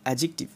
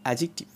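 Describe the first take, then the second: Both takes have the same delivery.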